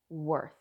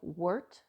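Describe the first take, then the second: First: The word ends with a soft th sound. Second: The word ends with a hard t sound. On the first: The speaker calls it right. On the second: The speaker calls it wrong.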